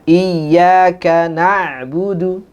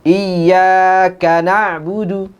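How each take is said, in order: First: The stress falls on na'budu. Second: The stress falls on iyyaka. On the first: The speaker calls it right. "harusnya ... dibedakan di na'budu" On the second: The speaker calls it wrong. "biasanya orang"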